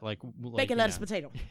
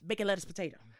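First: The phrase is said at a normal pace. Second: The phrase is said quickly, run together.

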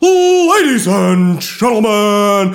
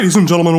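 First: It is said slower, like a wrestling announcer. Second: It is said fast, like a showbiz host. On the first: "wrestling announcer would be like" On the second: "talk really fast, like a real, like, showbiz guy"

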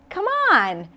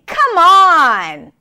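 First: It is said in a warm, encouraging tone. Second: It is said in an exasperated, frustrated tone. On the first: The listener is being urged to join in. "you can also say that when you're trying to encourage someone. It all depends on the tone of voice and intonation" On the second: The speaker cannot believe what was just said. "when you're frustrated with someone or upset"

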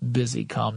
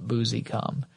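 First: The first syllable sounds like 'business'. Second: The first syllable does not sound like 'business'. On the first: The speaker calls it right. "because it's spelled like business. So I bet it's Busicom" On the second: The speaker calls it wrong. "not Busicom"

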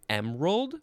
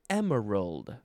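First: The word is said with two syllables. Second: The word is said with three syllables. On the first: "You can say it with 2 syllables" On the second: "or 3 syllables"

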